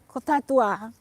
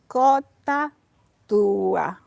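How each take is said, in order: First: The two words are run together without separation. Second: The two words and syllables are clearly separated. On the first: The speaker calls it wrong. "please don't say Kota Tua" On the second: The speaker calls it right. "Two words, but also separate between the two consonants. Syllables"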